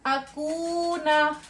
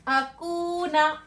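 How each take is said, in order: First: अकूना drawn out very slowly, ऊ held one alif long; teacher modelling अकूना for practice; slow demo of अकूना. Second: अकूना again very slowly, the ऊ held one alif; teacher repeating अकूना for students. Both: Shown as a demonstration. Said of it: "फिर नून जबर ना".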